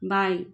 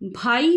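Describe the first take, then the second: First: The first consonant is plain, an unaspirated b. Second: The first consonant is breathy, an aspirated bh. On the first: The speaker calls it wrong. "कहकर बाई" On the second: The speaker calls it right. "भाई शब्द को भाई नहीं कहकर"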